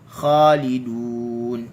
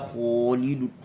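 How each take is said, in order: First: The first vowel sounds open, like a. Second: The first vowel sounds rounded, like o. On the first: The speaker calls it right. "kha bagi atas kena buka mulut" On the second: The speaker calls it wrong. "jangan kita baca hum fiha khalidun. Kho tak"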